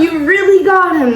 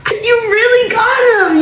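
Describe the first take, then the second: First: Said in the usual way. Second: Giggly and high-pitched; laughing high. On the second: Real, not acted. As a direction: say it through a giggle. Laughing, repeats the line.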